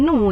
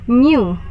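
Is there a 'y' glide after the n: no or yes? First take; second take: no; yes. First: It is said without a y glide after n. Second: It is said with a y glide after n. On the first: The speaker calls it wrong. "bukan new ya" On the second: The speaker calls it right. "tapi new. Seperti ada huruf N dan Y"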